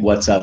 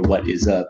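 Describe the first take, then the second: First: The phrase is contracted into two syllables. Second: The phrase is said in full, three syllables. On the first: "instead of saying" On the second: "instead of saying"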